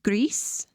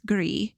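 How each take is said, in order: First: The word has a Spanish pronunciation. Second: The word has a French pronunciation. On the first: "they intended it to be pronounced Gris, which means gray in Spanish" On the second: "In French, it's Gris"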